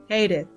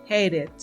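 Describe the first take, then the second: The two takes are said the same way.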